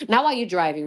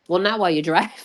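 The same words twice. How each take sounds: First: Said in the usual way. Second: Laughing. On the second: Real, not acted.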